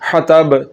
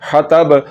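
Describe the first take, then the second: No difference in how they are said.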